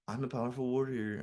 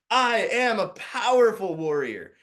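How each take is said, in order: First: It is said flatly, like plain reading. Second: It is said forcefully, like a war cry. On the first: The words are only being read, not felt. The speaker calls it wrong. "not just as this, like, I'm just reading it" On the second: The words are truly felt and embodied. The speaker calls it right. "I want this to be like a war cry"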